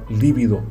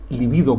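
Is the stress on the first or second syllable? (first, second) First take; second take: first; second. First: The stress is on the first syllable. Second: The stress is on the second syllable. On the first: The speaker calls it wrong. "Se desaconseja, por tanto, la forma esdrújula" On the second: The speaker calls it right. "es llana"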